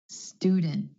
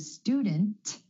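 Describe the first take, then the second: First: The final T is held, not released. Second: The final T is fully released. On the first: The speaker calls it right. "you're going to hear a held T for that cluster" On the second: The speaker calls it wrong. "Instead of"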